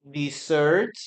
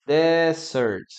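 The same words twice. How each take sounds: First: "Dessert" with the stress on "sert", slight rise; dessert with final stress. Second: "desert" said DE-sert, stress up front, falling; desert with first-syllable stress. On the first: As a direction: model "Dessert" as de-SSERT for the class. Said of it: "one more time". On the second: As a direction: model "desert" as DE-sert against dessert. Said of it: "Number two". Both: Shown as a demonstration.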